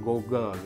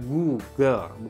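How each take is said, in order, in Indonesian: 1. Suku kata pertama terdengarnya seperti 'go'. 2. Suku kata pertama terdengarnya seperti 'goo'. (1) "bukan Google gitu ya" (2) "Google tuh dilafalinnya Google"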